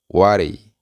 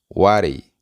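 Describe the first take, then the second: First: The words are blended into one reduced word. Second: The words are blended into one reduced word.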